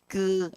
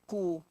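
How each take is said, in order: First: The vowel is said with spread, smiling lips. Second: The vowel is said with rounded lips. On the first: The speaker calls it wrong. "jangan baca baris depan dalam keadaan senyum, sengih. ... tak kena" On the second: The speaker calls it right. "Baris depan ni memang kena muncung"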